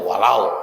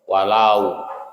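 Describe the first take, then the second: First: The ending of the word is cut short. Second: The ending of the word is fully sounded. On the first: The speaker calls it wrong. "Jangan dipotong, dipotong ini aja walau gitu enggak" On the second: The speaker calls it right. "tapi walau"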